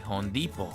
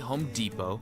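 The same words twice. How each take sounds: First: It is said with a heavy Spanish accent. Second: It is said with a plain American accent.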